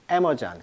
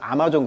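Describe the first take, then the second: First: It is said the English way, first syllable stressed. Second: It is said with Korean loanword sounds. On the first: "영식 발음은 에머전" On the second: "우리가 아마존 그러는데"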